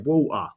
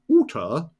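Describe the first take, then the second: First: The t sound in the middle is dropped. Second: The t sound in the middle is pronounced. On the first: "we don't pronounce our T's, we say water" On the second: "we don't say water"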